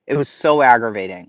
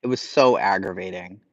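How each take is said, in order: First: Louder, pressed repeat; emphatic. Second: Said in the usual way. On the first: Real, not acted. Streamer to chat repeating herself, louder exasperated emphasis. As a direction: say it again with real exasperation.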